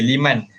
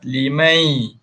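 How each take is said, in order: First: The word ends with a clear n sound. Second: The word ends with a slight y glide. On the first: "itu dia punya asal bunyi dia" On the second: "bunyikan ya sikit, masukkan sikit ya"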